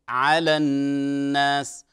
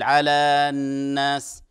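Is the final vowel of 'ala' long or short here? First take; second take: short; long. First: The vowel of 'ala' is short, run together. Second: The vowel of 'ala' is drawn out long. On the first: The speaker calls it right. "في حال الوصل ينتفي المد، فنقول" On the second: The speaker calls it wrong. "فلا نقول"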